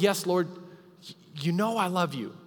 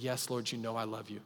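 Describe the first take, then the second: First: It is said with more emphasis and passion. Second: It is said with deep hurt and anguish.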